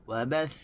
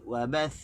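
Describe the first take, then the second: The two takes are said the same way.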